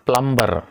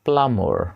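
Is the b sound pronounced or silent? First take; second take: pronounced; silent. First: The b sound is pronounced. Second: The b sound is not pronounced. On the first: The speaker calls it wrong. "That's wrong one" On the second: The speaker calls it right. "బి అనేది silent అవుతుంది"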